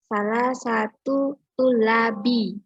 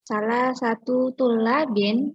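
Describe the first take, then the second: First: Neither word ends in an n sound. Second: Only the second word ends in an n sound. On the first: The speaker calls it wrong. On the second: The speaker calls it right.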